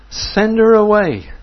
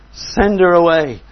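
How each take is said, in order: First: Urgent demand. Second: Insistent demand. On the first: Disciples begging Jesus. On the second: Repeat of disciples' demand. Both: Retold or imitated.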